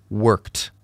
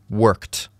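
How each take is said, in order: The two takes are said the same way.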